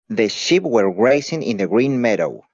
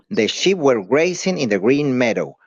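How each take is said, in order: The two takes are said the same way.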